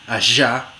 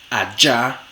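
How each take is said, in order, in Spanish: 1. Es una fricativa sonora, como 'zh'. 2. Es una africada sonora, como 'j'. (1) "fricativa postalveolar sonora" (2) "la africada postalveolar sonora"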